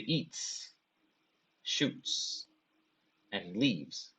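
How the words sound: Pauses separate each of the three words. Something eats, fires a gun, then goes away. The speaker calls it wrong. "if you give those pauses, if you stop at those points"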